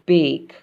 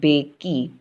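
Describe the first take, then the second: First: The word ends without an extra vowel sound. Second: The word ends with an extra ee sound. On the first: The speaker calls it right. "if the E comes in last, we don't say it. It's silent" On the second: The speaker calls it wrong. "We don't say is bakey"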